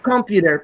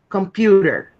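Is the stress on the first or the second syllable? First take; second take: first; second. First: The stress is on the first syllable. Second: The stress is on the second syllable. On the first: The speaker calls it wrong. "it's not computer because you're placing the stress on the first syllable" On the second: The speaker calls it right. "It's computer"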